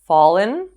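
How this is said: The pitch rises at the end. "using rising and falling intonations"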